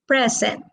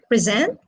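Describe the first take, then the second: First: The stress is on the first syllable. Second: The stress is on the second syllable. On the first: It is a noun meaning a gift. "present is a noun, ... as a gift is stressed on the first syllable" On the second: It is a verb. "present is a verb, ... stressed on the second syllable"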